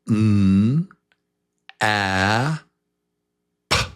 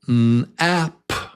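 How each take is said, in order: First: The sounds are said slowly, one by one. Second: The sounds are said quickly, close together. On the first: "Say each sound with me"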